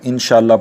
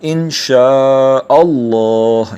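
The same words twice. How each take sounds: First: The 'sha' is short, with no glottal break. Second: The 'sha' is long, with a glottal break. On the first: The speaker calls it wrong. "इसको कई लोग इंशाअल्लाह पढ़ देते हैं, तो इस तरह नहीं पढ़ना चाहिए।" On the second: The speaker calls it right. "तो शाह को लंबा करेंगे और फिर हमज़ा को अल्लाह वाले लाम से मिला देंगे।"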